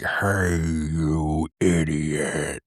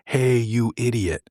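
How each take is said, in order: First: It is said in a weird, menacing voice. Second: It is said in a plain, ordinary voice.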